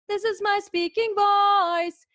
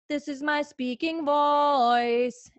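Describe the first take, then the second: First: It is spoken at the highest, most intense pitch. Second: It is spoken at a low, relaxed pitch.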